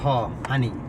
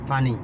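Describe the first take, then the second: First: The word begins with an H sound. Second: The word begins with a P sound.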